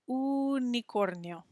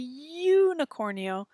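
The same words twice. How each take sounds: First: It is pronounced with a Spanish-style vowel. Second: It is pronounced with an English-style vowel. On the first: The speaker calls it right. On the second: The speaker calls it wrong.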